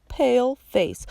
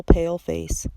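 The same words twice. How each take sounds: First: "pale face" echoed high and sneering; mocking echo. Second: Said in the usual way. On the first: A narrator's reading. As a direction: throw "pale face" back at him with a sneer. Stefano mocking Klaus's words.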